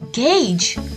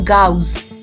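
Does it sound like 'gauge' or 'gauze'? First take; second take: gauge; gauze. First: The word sounds like 'gauge'. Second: The word sounds like 'gauze'. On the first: The speaker calls it right. "It is called a gauge" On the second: The speaker calls it wrong. "not a gauze"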